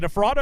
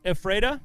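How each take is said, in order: First: "Ephrata" said eh-FRAH-duh, AH in the middle; pronunciation with AH. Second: "Ephrata" said eh-FRAY-duh, rising as a question; pronunciation with AY. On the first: Emcee checks a town's name, "Ephrata" with FRAH in the middle. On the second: Emcee offers the other way, "Ephrata" with FRAY in the middle. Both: Shown as a demonstration. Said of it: "How do you say it?".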